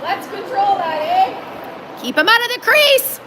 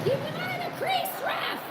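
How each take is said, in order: First: Yelling from the sidelines. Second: High yell from far off; yelling from the sidelines. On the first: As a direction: call it out sharply to the players. Yelling at the players. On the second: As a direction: shout it across the rink at the ref. Yelling at the ref from stands. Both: Real, not acted.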